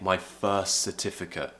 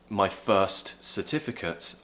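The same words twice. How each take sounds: First: The final t of first is dropped, words joined. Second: The final t of first is clearly pronounced. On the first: The speaker calls it right. "dropping one of those T's" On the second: The speaker calls it wrong. "instead of saying"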